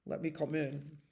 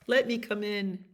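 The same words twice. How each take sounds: First: Low, soft bear voice; big bear, pitched down and quiet. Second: Lightly voiced little mouse; a hint of small mouse voice; teeny tiny voice. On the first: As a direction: ask in a lowered bear's voice. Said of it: "said the bear". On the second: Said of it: "in a teeny tiny voice". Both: A narrator's reading.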